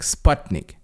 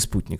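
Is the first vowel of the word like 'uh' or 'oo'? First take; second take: uh; oo. First: The first vowel sounds like 'uh'. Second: The first vowel sounds like 'oo'. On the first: The speaker calls it right. "А читается слово «спутник» — «спатник»" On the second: The speaker calls it wrong. "а не «спутник»"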